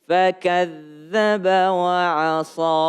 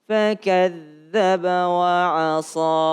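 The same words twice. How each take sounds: The two takes are said the same way.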